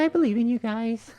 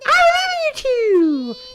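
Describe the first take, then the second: First: It is said quietly, trailing off. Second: It is said loudly, shouted.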